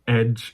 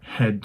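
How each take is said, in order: First: The word starts without an H sound. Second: The word starts with a clear H sound. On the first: The speaker calls it wrong. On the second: The speaker calls it right.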